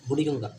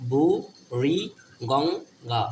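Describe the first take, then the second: First: Said in the usual way. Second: বু, রি, Ganga split by clear pauses; syllable by syllable. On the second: Shown as a demonstration. Teacher repeating a river's name for pupils, syllable by syllable. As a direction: slowly sound out each part of the name.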